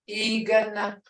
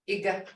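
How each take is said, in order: First: "Igana" with a held first ee; long toned vowel. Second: "Iga" brief, no held tone; short, toneless vowel. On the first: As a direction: draw out the opening of "Igana". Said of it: "Igana is long". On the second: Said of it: "It don't have a tone". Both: Shown as a demonstration.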